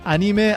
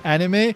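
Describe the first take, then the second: First: The word is given a Japanese-style pronunciation. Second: The word is given an English-style pronunciation. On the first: "at least in these videos, I say it anime" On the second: "I don't say anime"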